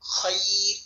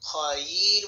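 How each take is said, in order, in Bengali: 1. সাকিন "r"-এর আগে "ya"-তে চাপ দিয়ে টেনে বলা হয়। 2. "ya" সাধারণভাবে ও সংক্ষেপে বলা হয়। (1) "ইয়ার উপরে একটা চাপ দিতে হবে, তারপর টেনে সামনে গিয়ে রর উপর সাকিন করবেন" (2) "বলা যাবে না"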